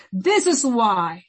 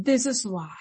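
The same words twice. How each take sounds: First: "This is why" slow and weighty; "This is why" drawn out at half speed; emphatic repeat. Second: Said in the usual way. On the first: Real, not acted. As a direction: stretch out every word of "This is why". Repeated for emphasis, second take.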